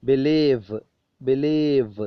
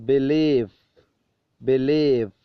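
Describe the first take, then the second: The two takes are said the same way.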